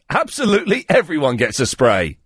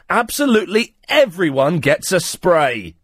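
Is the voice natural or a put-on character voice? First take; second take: natural; put-on. First: It is read in the speaker's natural voice. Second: It is read in a put-on character voice.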